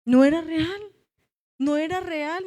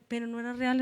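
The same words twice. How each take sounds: First: Much louder, "No era real" preached out; emphatic declaration. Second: Said in the usual way. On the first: Shown as a demonstration. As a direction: proclaim "No era real" to the church. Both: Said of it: "restates the same words".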